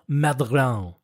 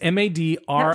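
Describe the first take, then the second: First: The name is pronounced with an English sound. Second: The name is pronounced with a French sound. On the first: The speaker calls it wrong. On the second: The speaker calls it right.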